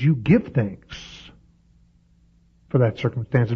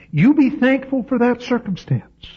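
First: "give" stressed, slowed right down; the right version. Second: "be" stressed, pitched high above the rest; the wrong version. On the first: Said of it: "He says". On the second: Preacher voices the wrong version to his congregation, high stress on "be". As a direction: lift and punch "be" as the misquote. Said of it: "No, no". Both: Shown as a demonstration.

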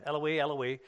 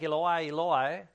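First: Eloi said as EL-uh-wee; Aramaic pronunciation. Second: Eloi said as ee-lo-EYE, drawn out slowly; first-attempt pronunciation. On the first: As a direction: say Eloi ending in "wee", twice. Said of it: "is the way you would say it". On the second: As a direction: say Eloi ending in "eye", stretched out. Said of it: "I think that's the way you say". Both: Shown as a demonstration.

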